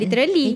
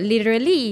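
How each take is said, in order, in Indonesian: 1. Ini diucapkan dengan aksen Inggris Melayu. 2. Ini diucapkan dengan aksen Inggris Amerika. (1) "kalau kita orang Melayu kita sebut" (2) "kalau American dia sebut"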